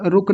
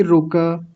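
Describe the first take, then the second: First: रुक closed on a bare k; wrong clipped रुक. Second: रुक as ru-ka with the vowel kept; correct full रुक. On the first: Teacher rejecting students' version, रुक with no final vowel. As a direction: chop रुक to one syllable. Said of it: "रुक नहीं". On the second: Teacher asking for whole ka, two-syllable रुक. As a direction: sound the a after k in रुक. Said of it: "क को पूरा रखेंगे". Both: Shown as a demonstration.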